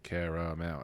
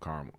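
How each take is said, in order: First: The word is said with three full syllables. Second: The word is squeezed into one syllable. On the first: "It's three syllables" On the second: "It's like one syllable"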